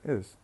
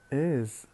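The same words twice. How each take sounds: First: The word is said unstressed and weak. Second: The word is said stressed and prominent. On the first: "we say is" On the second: "saying is with a stress uh, peak"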